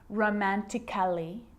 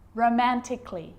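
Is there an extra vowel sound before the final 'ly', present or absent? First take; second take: present; absent. First: An extra vowel is sounded before the final ly. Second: No extra vowel is sounded before the final ly. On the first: The speaker calls it wrong. "I'm not pronouncing romantically" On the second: The speaker calls it right. "Cut the A out"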